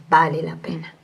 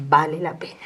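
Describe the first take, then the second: First: The Spirit speaking to María, whispered. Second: Said in the usual way. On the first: Retold or imitated. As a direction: hush the words to a breath. Spirit's words repeated, whispered.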